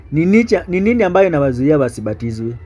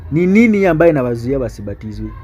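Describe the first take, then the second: The two takes are said the same way.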